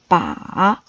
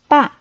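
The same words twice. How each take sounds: First: It is said with a low dipping pitch. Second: It is said with a sharply falling pitch. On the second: "and fourth tone"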